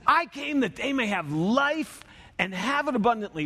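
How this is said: It is said with enthusiasm.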